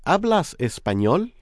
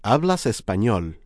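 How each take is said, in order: First: "¿Hablas español?" with pitch rising at the end; rising question. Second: "¿Hablas español?" with pitch dropping at the end; falling statement. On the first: Teacher modelling a question for learners, rising final tune. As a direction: ask "¿Hablas español?" lifting up on "español". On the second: Teacher modelling a statement for learners, falling final tune. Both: Shown as a demonstration. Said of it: "turn this question into a statement by lowering the pitch".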